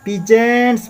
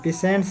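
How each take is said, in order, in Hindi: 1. बीच का व्यंजन भनभनाती z ध्वनि है। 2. बीच का व्यंजन सीटी जैसी s ध्वनि है। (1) "पीजेंट्स अच्छा उच्चारण होगा इसका" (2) "पीसेंट्स नहीं पढ़ेंगे"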